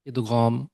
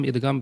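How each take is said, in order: First: ادغام with Arabic ghain and long aa; ادغام said the Arabic way, gh not g; Arabic pronunciation. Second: ادغام as idgaam, with a hard g; everyday ادغام, no Arabic ghain; normal everyday pronunciation. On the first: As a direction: model ادغام carefully as id-ghaam. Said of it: "Arabic میں کیا ہے اس کا pronunciation". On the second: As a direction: say ادغام casually with g instead of gh. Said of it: "normally ہم ادغام بولتے ہیں". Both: Shown as a demonstration.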